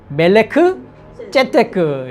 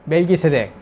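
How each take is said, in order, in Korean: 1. 이 이름은 히브리식 'Melek Tsedek'으로 발음합니다. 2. 이 이름은 한국식 'Melgisedek'으로 발음합니다. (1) "원문 그 발음을 그냥 해보면" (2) "멜기세덱이 아니라"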